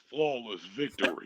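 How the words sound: It is said in a Mortal Kombat announcer voice.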